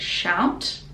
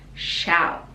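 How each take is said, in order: First: The final T is fully released. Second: The final T is held, not released. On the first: "you can pronounce it" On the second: "or stop the tongue at the top"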